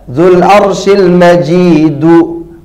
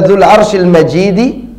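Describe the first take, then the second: First: The last word ends in an 'oo' vowel. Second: The last word ends in an 'ee' vowel. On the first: The glory describes God. "Kalau dibaca Dzul Arsyil Majidu" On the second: The glory describes the throne. "Kalau dibaca Dzul Arsyil Majidi"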